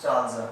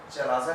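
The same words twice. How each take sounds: First: चालजा with long first vowel, CHAAL-za; preferred pronunciation. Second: चलाजा with a short first vowel and long 'laa', cha-LAA-za; alternative pronunciation. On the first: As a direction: say चालजा in two beats, 'chaal-za'. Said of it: "ये part को हम बोलते हैं चालजा". (चालजा को 'चाल-ज़ा' बोलें, पहला स्वर लंबा) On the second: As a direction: say चलाजा as many people do, 'cha-laa-za'. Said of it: "बहुत से लोग उसे चलाजा कहते हैं". (चलाजा को 'च-ला-जा' बोलें, ला लंबा) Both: Shown as a demonstration.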